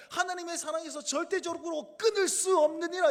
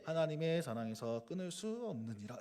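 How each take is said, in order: First: High, loud, emphatic scripture quote; rousing promise, key words punched; hopeful proclamation. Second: Low, soft droning read; flavourless reading. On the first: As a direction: declare it with full conviction. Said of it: "희망의 메시지로 가득 차 있습니다". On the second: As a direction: read it with all the energy drained. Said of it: "이러면 이게 맛이 안 나는 거예요". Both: Shown as a demonstration.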